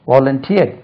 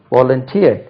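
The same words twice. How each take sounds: The two takes are said the same way.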